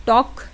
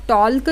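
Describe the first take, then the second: First: टॉक with a silent L, said as the right reading; correct pronunciation. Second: टॉल्क with the L sounded, as a wrong example; wrong pronunciation. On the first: Teacher giving students the right reading टॉक. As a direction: say टॉक and drop the L. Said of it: "आप इसको क्या पढ़ते हो, टॉक". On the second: Teacher showing students the wrong reading टॉल्क. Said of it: "टॉल्क तो नहीं पढ़ते हो ना". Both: Shown as a demonstration.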